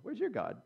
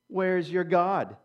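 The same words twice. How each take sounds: First: It is said in a friendly, curious tone. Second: It is said in a taunting, mocking tone. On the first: The question is a sincere, interested question. "Oh, you're a different people. I like your culture" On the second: The question is an insult, not a real question. "I said it with that tone because they're not just asking a question"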